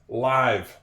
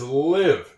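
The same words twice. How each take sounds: First: The vowel is long, rhyming with five. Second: The vowel is short, rhyming with give. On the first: "can also be pronounced live. Like if you go fishing" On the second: "That is live. It is a silent E... this E makes this I a soft I"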